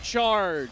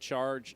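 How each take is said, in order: First: The word is shouted loudly with high energy. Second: The word is said calmly at normal volume. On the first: The speaker calls it right. "That's how you're supposed to say it" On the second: The speaker calls it wrong. "I'm not saying it right"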